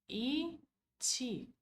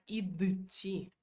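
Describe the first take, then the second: First: A short pause comes before a single t. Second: A d sound comes before the t. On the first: "Você pode falar a letra I, fazer uma pequena pausa e continuar ti" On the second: "nós nunca vamos falar id, ti. Fica muito puxado para a garganta"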